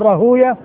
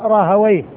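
First: The name is said the hadith scholars' way. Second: The name is said the linguists' way. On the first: This is how hadith scholars pronounce the name. "المحدثين يقول راهوية" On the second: This is how linguists pronounce the name. "واللغويين يقولون راهوية"

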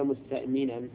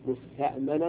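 First: The m carries an 'i' vowel. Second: The m carries an 'a' vowel. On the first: The speaker calls it right. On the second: The speaker calls it wrong.

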